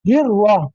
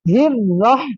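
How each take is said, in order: First: The r is said with rounded lips, like w. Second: The r is said clearly with unrounded lips. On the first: The speaker calls it wrong. "मुंह को गोल कर देते हैं" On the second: The speaker calls it right. "होंठ जो है वो नीचे की तरफ"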